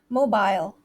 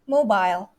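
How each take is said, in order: First: It is said with a British accent. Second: The same.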